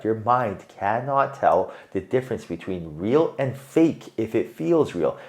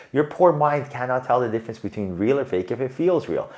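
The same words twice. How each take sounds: First: Slower, each word laid down deliberately; slow repeat. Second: Said in the usual way. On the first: Shown as a demonstration. Reader repeats the point to viewer, slowly and deliberately. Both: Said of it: "I repeat this".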